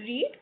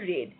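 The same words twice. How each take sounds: First: The vowel is long, like in 'need'. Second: The vowel is short, like in 'bed'. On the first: It is the present tense form. "Present form হচ্ছে read" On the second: It is the past tense form. "Past form হচ্ছে read"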